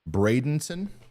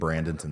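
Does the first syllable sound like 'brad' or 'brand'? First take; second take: brad; brand. First: The first syllable is said as 'brad'. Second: The first syllable is said as 'brand'. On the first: The speaker calls it right. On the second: The speaker calls it wrong.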